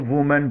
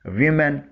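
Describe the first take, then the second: First: वुमेन starting with "wu"; singular वुमेन, "oo" in the first syllable; singular pronunciation. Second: वीमेन starting with "wi"; plural pronunciation. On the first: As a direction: say वुमेन as "WU-men", rounded first vowel. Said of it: "अगर singular हो". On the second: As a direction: say वीमेन as "WI-men", ee-like first vowel. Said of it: "जिसे वी बोला जाता है।". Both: Shown as a demonstration.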